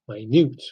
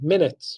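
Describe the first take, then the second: First: The stress is on the second syllable. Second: The stress is on the first syllable. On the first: "The stress is on second syllable" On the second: "stress is on the first syllable"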